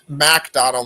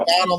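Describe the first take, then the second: First: The first syllable sounds like the word 'Mac'. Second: The first syllable sounds like the restaurant chain. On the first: The speaker calls it right. "It's MacDonald like M A C" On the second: The speaker calls it wrong. "Not McDonald like McDonald's"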